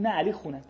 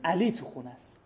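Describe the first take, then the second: First: The stress is on the word home. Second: The stress is on the name Ali.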